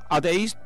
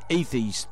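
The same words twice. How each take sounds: First: It is said with a Spanish-style pronunciation. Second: It is said with a native English pronunciation. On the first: The speaker calls it wrong. "yo siempre he dicho atheist" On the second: The speaker calls it right. "cuando escuchas a alguien que sabe inglés de verdad dice atheist"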